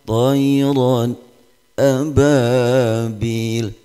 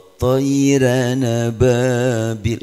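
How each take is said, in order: First: A brief silent break separates the two words. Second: The n sound runs straight into the next word. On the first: "Kalau saktah tayran ababil" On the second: "Kalau tayra nababil itu riwayat Warash"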